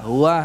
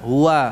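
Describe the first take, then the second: First: The w sound comes from deep in the throat. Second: The same.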